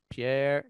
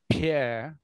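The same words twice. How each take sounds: First: The P is said without a puff of air. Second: The P is said with a puff of air. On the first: "un P euh, non aspiré" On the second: "puis un P aspiré"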